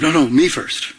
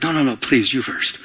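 First: Insisting on going first; pushy selfish. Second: Courteous shopper waving someone ahead; polite deferring. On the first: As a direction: claim the place in line for yourself. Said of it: "Instead of". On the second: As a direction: gently let the other person go first. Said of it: "Like you're standing in line". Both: Pretend.

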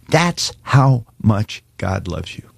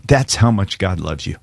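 First: That's how much God loves you, slowed and leaned on; slow, emphatic. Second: Said in the usual way. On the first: Shown as a demonstration. Pastor pressing the listener to hear, slow and emphatic. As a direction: dwell on "That's" slowly. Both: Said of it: "I want you to hear me".

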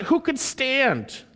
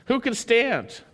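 First: Who could stand drawn out slowly, pitched high, weight on who; emphatic question. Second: Said in the usual way. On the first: Shown as a demonstration. Preacher reads the psalmist's plea aloud, slow and emphatic. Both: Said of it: "it's emphatic".

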